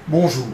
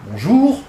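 First: "Bonjour" stepping down, falling on the second syllable; dominant intonation. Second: "Bonjour" with the second syllable rising high; trustworthy intonation. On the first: Researcher drawing the dominant greeting's melody, "Bonjour" with a descending tune. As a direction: bring "Bonjour" firmly down, syllable by syllable. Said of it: "ça descend sur la première syllabe". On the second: Researcher giving the trustworthy formula, "Bonjour" climbing on the second syllable. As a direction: start level, then lift "jour" clearly upward. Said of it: "on monte sur la deuxième".

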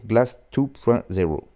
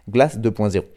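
First: Title attempted in an English accent; English pronunciation. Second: Title said in a plain French accent; French pronunciation. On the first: Radio host trying the album title, with an English accent. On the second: Radio host correcting himself after sounding ridiculous, in a French accent. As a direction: say the number in French, "deux point zéro". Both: Shown as a demonstration. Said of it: "C'est ridicule".

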